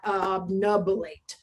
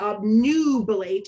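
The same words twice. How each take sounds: First: The second syllable has a short 'uh' vowel. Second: The second syllable has a long 'oo' vowel. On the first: The speaker calls it wrong. "and not obnubilate" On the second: The speaker calls it right. "this U is going to shout its name, which is why we say obnubilate"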